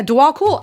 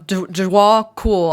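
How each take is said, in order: First: Dua Kul said higher and louder, rising on Kul; triumphant second try at Dua Kul; confident retry. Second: Dua Kul sounded out slowly, broken off at Du- and restarted; hesitant, halting first try at Dua Kul; unsure attempt. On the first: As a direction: nail Dua Kul with a pleased lift on Kul. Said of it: "I did get it right". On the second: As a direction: stumble slowly through Dua Kul, doubting it. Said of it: "I know I'm not saying that right". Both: Real, not acted.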